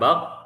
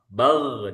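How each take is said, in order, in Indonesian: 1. Konsonan akhirnya terputus mendadak. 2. Konsonan akhirnya mengalir, udara terus keluar. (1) "Jangan bak" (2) "Rohwa itu bal"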